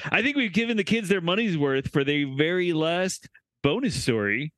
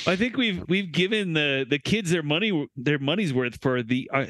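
First: Said in the usual way. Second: Halting false starts and repeated words; stumbling. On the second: Real, not acted. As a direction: stutter your way through the sentence. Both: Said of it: "stutter through this".

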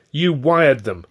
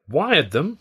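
First: Loud, raised-pitch accusing statement, falling at the end; indignant, falling charge; accusation. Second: High rising 'Wired them?' as a question; raised 'Wired', rising tune to the end; incredulous echo question. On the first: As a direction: accuse him outright, voice up. Accusing colleague of summoning the agents. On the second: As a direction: echo "Wired them?" in disbelief, ending upward. Echoes the accusation as a question. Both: A narrator's reading.

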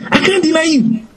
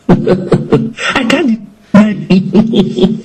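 First: Much higher, thin mock boast; high, tight hammed-up Peter; squeaky mock boast. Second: Slow, laughing mock boast; hammed-up laughing Peter. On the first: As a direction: squeak out the promise. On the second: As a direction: laugh through the bragging promise. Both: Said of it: "Peter was saying".

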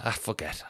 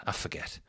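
First: Said in the usual way. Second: "I forget" breathed out unvoiced, much softer; whispered aside. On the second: Real, not acted. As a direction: whisper it to yourself. Repeats then whispers.

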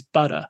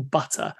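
First: "butter" with the T turned into a D sound; American soft T. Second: "butter" with a true T sound in the middle; pronounced T. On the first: Showing the American way, "butter" with a D sound. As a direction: say "butter" as "budder". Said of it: "with B's, butter". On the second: Showing the old Hollywood speech, "butter" with a clear T. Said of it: "really making a point of pronouncing T's". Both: Shown as a demonstration.

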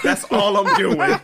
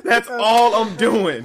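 First: Laughing through the line. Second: Slower, louder, laughing; slow laughing emphasis. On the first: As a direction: crack up as you say it. Repeated punchline, laughing. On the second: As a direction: stretch it out while laughing. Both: Real, not acted.

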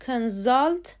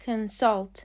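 First: Consult said the wrong way, slowly; wrong pronunciation. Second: Consult stressed on the second syllable, kn-SULT; correct pronunciation. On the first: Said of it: "consult غلطه". (تلفظ غلط consult، آهسته) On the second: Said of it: "تلفظ صحیح consult". (تلفظ درست consult با تکیه روی هجای دوم) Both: Shown as a demonstration.

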